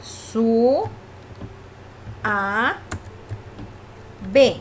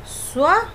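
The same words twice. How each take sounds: First: "suave" broken as "su... a... ve"; "suave" with long pauses separating "su", "a" and "ve"; split in three syllables. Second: "suave" broken as "sua... ve"; "suave" with "sua" held together, pitched up, then a pause; split in two syllables. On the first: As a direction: say "suave" in three isolated beats, su-a-ve. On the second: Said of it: "tiene dos sílabas". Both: Shown as a demonstration.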